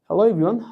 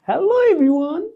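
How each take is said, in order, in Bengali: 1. এটি সমতল, আনুষ্ঠানিক, ব্যবসায়িক ভঙ্গিতে বলা হয়েছে। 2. এটি প্রাণবন্ত, কৌতুকপূর্ণ, শিশুসুলভ ভঙ্গিতে বলা হয়েছে। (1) "এভাবে কর্পোরেটের মতো" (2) "ওই তাদের মতো করে কথা বলতে হবে"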